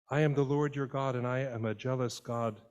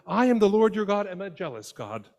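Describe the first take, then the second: First: Said in the usual way. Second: High and loud, a booming divine declaration; God declaring. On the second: Retold or imitated. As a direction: announce it to Moses with force. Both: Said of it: "God reminds Moses".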